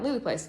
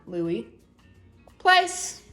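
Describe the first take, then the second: First: The name runs straight into the command. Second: A long pause separates the name and command. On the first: The speaker calls it wrong. "I'm never saying" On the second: The speaker calls it right. "I always wait a nice long pause before I give a command"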